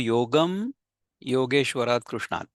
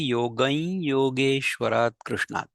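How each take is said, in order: First: The first word ends in a clear m sound. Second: The first word ends in a nasal glide into y. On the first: The speaker calls it wrong. "जर आपण शिकलो नसो की कसं त्याचं उच्चारण करायचंय, तर आपण काय म्हणू?" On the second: The speaker calls it right. "जो बरोबर उच्चार आहे तो असा आहे"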